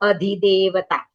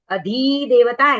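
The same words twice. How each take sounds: First: The 'dhi' vowel is short and quick. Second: The 'dhi' vowel is drawn out long. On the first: The speaker calls it right. "धी ह्रस्व है ... धी को जल्दी बोलना है" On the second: The speaker calls it wrong. "ऐसे नहीं करना है"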